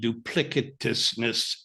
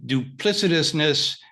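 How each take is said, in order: First: The C is pronounced hard, like a K. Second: The C is pronounced soft, like an S.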